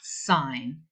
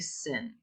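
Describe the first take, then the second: First: The vowel is long, rhyming with 'fine'. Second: The vowel is short, rhyming with 'tin'. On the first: The speaker calls it right. "we say it sine" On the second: The speaker calls it wrong. "Don't say sin. ... It's incorrect"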